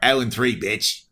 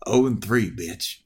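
First: It is said in a put-on Australian accent. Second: It is said in the speaker's plain accent.

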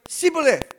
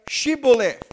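First: The word begins with a plain s sound. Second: The word begins with an sh sound. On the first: The speaker is from Ephraim. The speaker calls it wrong. "people from Ephraim cannot pronounce the word correctly" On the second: The speaker is not from Ephraim. The speaker calls it right. "they would tell him to say"

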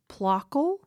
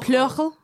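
First: The first vowel is a plain back o. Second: The first vowel is a front rounded ö. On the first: "I think that's how you pronounce that" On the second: "It has an umlaut over the O"

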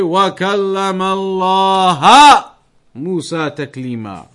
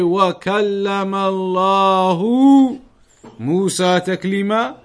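First: Allah ends with an a vowel. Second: Allah ends with a u vowel. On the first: "changing the who to a ha"

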